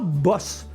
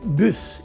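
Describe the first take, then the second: First: The vowel is an open o sound. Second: The vowel is a rounded front French u. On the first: The speaker calls it wrong. "et non pas boss, comme en anglais" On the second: The speaker calls it right. "On doit prononcer bus"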